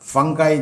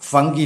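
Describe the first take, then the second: First: The word ends with an 'eye' sound. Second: The word ends with an 'ee' sound. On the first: The speaker calls it right. "ഫംഗായി എന്നാണ് അത് പറയേണ്ടത്" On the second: The speaker calls it wrong. "ഫംഗി എന്നല്ല"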